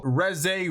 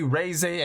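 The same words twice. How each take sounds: First: REZE with a short first vowel, "REZ-ay"; short-vowel pronunciation. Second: REZE with a long first vowel, "RAY-zay"; long-vowel pronunciation. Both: Shown as a demonstration. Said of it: "and then there's Reze and Reze".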